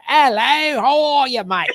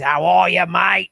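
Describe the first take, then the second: First: High, loud, hammed-up Cockney; Cockney accent. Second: Hammed-up Aussie greeting; Australian accent. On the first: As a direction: greet like a caricature Cockney. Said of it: "those Cockney folks with their shoulders". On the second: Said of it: "the Aussies". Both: Shown as a demonstration.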